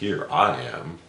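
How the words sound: It sounds proud and boastful.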